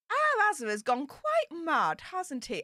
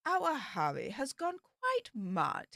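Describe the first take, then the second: First: Said in the usual way. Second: Slow, soft, plummy Queen's English impression; posh Queen's English. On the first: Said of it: "let me do this in my proper, like, posh voice". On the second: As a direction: put on the Queen's English, slowly and softly. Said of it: "I'll try and do the Queen's English".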